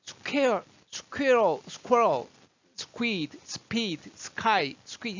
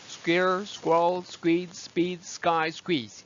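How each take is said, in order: First: Higher-pitched "square, squirrel" with air escaping after s; breath let out. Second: "square, squirrel" with tight, unaspirated consonants; breath held. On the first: Teacher showing the wrong way, airy high "square, squeeze". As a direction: puff out "squid, speed, sky" one by one, high. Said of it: "호흡이 나갈 때보다". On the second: Teacher showing the right way, tight "square, squeeze". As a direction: hold the air and snap out "squid, speed, sky". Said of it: "호흡을 딱 잡으면". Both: Shown as a demonstration.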